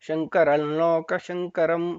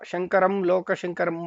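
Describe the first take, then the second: First: A doubled nasalized l replaces the m sound. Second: A full m with closed lips precedes loka. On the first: The speaker calls it right. "ಲಾಗೆ ಒಂದು ಒತ್ತಕ್ಷರ ಸೇರ್ಕೊಳ್ಳುತ್ತೆ" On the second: The speaker calls it wrong. "ಮ ಅಲ್ಲಿ ತುಟಿ ಸ್ಪರ್ಶ ಆಗ್ಬಾರ್ದು"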